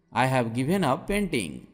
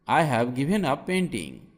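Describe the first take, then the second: No difference in how they are said.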